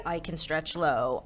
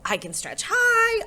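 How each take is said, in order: First: Low singsong. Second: Held squeak up high on "high"; high singsong. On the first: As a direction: settle "low" down in pitch. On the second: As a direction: let "high" soar in pitch. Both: A narrator's reading. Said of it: "thinking about high and low and start to sing".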